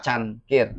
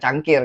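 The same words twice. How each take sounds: First: It is said with no hard g sound. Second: It is said with a hard g sound. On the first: The speaker calls it right. "Can itu kan tidak make G kan?" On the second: The speaker calls it wrong. "bukan cangkir kan?"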